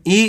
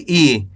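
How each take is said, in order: First: ई said short; don't draw out the ई; quick, brief ई; short vowel. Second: ई drawn out, falling; long, held ई; long vowel. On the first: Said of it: "कम खींच के पढ़ेंगे". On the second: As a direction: stretch the ई. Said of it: "खींच के पढ़ेंगे". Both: Shown as a demonstration.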